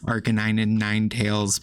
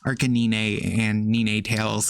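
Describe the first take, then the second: First: The names are pronounced the standard way. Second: The names are pronounced in a deliberately odd way. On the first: "technically supposed to be" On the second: "way funnier to me"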